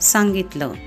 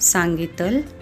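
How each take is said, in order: First: The word ends with a short 'uh' vowel. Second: The word ends on a bare final consonant. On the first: The speaker calls it right. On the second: The speaker calls it wrong.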